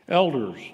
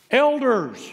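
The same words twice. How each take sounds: First: Said in the usual way. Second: High, loud exclaimed ELDERS; exclaiming. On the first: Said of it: "First word in this sentence". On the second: Acted. Peter summoning the church elders by his first word, exclaimed. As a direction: call out "Elders" to seize attention. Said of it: "just comes right out and just exclaims".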